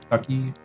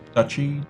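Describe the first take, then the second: First: The middle consonant is a k sound. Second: The middle consonant is a ch sound. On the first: The speaker calls it right. "I think you say it with a K" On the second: The speaker calls it wrong. "There's no T, so it's not really Dutch"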